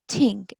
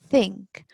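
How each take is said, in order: First: It starts with a plain t sound. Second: It starts with a th sound. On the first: The speaker calls it wrong. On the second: The speaker calls it right.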